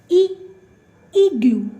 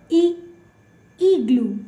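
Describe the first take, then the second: Both takes have the same delivery.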